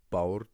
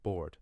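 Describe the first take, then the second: First: "board" said the Irish way, with an "ow" vowel; loud Irish "board", vowel gliding like "bowrd"; Irish pronunciation. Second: "board" as the English word, with an "or" vowel; plain English "board", falling tone; English pronunciation. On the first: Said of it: "if I pronounce them". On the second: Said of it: "English pronunciation written underneath". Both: Shown as a demonstration.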